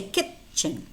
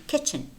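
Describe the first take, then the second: First: Kitchen with the T made separately, "kit-chen"; sounded T. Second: Kitchen run together as "kichen"; no separate T before CH in kitchen; silent T. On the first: Teacher allows another way, sounded T in kitchen. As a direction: split kitchen, stopping on the T before CH. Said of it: "and that's fine". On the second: Teacher shows how native speakers say it, silent T in kitchen. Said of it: "but native speakers say". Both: Shown as a demonstration.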